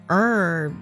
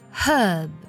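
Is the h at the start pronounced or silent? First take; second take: silent; pronounced. First: The word begins without any h sound. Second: The word begins with an audible h sound. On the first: "在美式的发音当中直接读作了herb，对，直接把h 的这个音省掉了" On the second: "在英式的发音当中呢直接会读作herb，字母h 呢是发音的"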